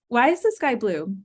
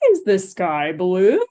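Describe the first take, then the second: First: The pitch stays level and the pace is faster. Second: The pitch swings very high and very low. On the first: The asker is an adult seeking information. "the tone there is much more in the same pitch" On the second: The asker is teaching a child. "I'm really exaggerating pitch there, but I can go really high and really low"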